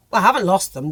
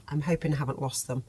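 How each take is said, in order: First: Louder, sure of herself; firm correction. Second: Quiet, unsure hoping; soft and doubtful, half to herself; worried hope. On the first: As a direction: correct yourself firmly. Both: Real, not acted.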